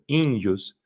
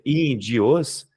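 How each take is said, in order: First: The ending is said as one syllable. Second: The ending is forced into two syllables. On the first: "essa pronúncia" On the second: "se eu forçasse seria índios"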